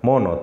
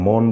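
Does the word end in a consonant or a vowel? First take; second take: vowel; consonant. First: The word ends with an added o vowel. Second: The word ends on the n sound. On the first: The speaker calls it wrong. "বিদেশিরা যে ভুলটা করবে সেটা হচ্ছে মনও বলবে" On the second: The speaker calls it right. "আমরা মন বলি"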